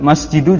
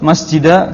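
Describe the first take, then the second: First: The word ends in a u vowel. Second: The word ends in an a vowel. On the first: "juga salah" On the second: "Antum nggak boleh ucapkan"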